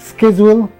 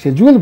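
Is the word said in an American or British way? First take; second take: American; British. First: The word starts with a 'sk' sound. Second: The word starts with a 'sh' sound. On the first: This is how it is said in America. "ও this is স্কেজুয়াল" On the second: This is how it is said in British English. "আমি যখন তাকে শেজুয়াল বলি সে কিছুই বুঝে না"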